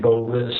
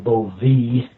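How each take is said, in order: First: The name is said the American way. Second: The name is said the French way. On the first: "but we say" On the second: "His French name was probably"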